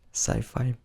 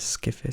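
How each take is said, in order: First: It is said as 'sci-fi', with long 'eye' vowels. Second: It is said as 'skiffy', with short vowels. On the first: "Maybe you hear sci-fi more often" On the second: "That's how you say it's Skiffy"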